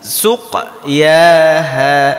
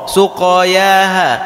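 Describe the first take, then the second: First: The q is held and released before yaha. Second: The q runs straight into an added a vowel. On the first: The letter stays vowelless with its bounce. The speaker calls it right. "Menyongkan dulu, tarik, baru dibu dibuka" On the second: The silent letter wrongly takes a vowel. The speaker calls it wrong. "Kalau kita tidak membalikkan suqa, maka akan tercampur"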